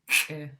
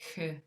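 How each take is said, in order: First: The sound is a sharp friction with a glottal snap. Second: The sound is a plain breathy friction. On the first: "with it pinched, it sounds like k" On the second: "without an apostrophe, it would sound like h"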